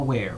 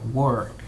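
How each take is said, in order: First: The vowel sounds like the one in hair. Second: The vowel sounds like the one in her. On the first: The speaker calls it wrong. "No where" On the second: The speaker calls it right. "were sería la pronunciación correcta"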